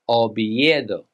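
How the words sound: It is pronounced with Spanish sounds. The speaker calls it right. "In Spanish, you would say"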